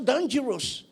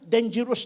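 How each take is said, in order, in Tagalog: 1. Sinasabi ito sa Ilocano na accent. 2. Sinasabi ito sa Manila na accent, tumataas ang pitch. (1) "yun ang pronunciation sa amin eh" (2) "Pagdating dito, na iba na, dangerous na, umakyat na"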